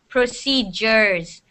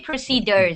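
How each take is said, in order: First: The middle consonant sounds like a j. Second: The middle consonant is a hard d. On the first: The speaker calls it right. "So this D makes a J sound" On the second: The speaker calls it wrong. "you do not say the D hard"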